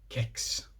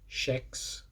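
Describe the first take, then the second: First: The word starts with a hard k sound. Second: The word starts with a soft sh sound. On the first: This is how most regions say it. The speaker calls it right. "Everywhere else they say kex with a hard K" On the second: This is how Gothenburg says it. The speaker calls it wrong. "calling that shex for people who don't pronounce it like that"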